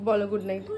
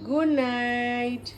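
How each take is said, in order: First: Said in the usual way. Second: Put-on mother drawing out good night for her toddler to copy; slow, drawn-out good night. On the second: Shown as a demonstration. Slow drawn-out demo. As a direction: stretch each word out slowly for the baby.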